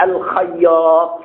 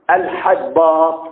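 First: الخياط said slowly, each sound clear; drawn-out careful الخياط; correct name, slowly spelled out. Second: الحباط said slowly as the scribe's mistake; slow careful الحباط, the miscopied form; copyist's wrong reading. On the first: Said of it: "عندي واحد اسمه عبد الله". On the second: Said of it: "الناسخ غلط وكتبه". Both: Shown as a demonstration.

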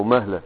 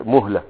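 First: "مهلة" with a after the m, mahla; فتح الميم. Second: "مهلة" with u after the m, muhla; ضم الميم. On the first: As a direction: say "مهلة" as MAH-la. ("مهلة" بفتح الميم) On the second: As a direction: say "مهلة" as MUH-la. ("مهلة" بضم الميم) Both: Shown as a demonstration. Gives two vowelings of word.

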